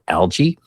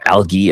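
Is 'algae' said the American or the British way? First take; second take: American; British. First: Algae is said with an American pronunciation. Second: Algae is said with a British pronunciation.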